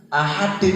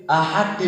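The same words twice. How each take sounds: The two takes are said the same way.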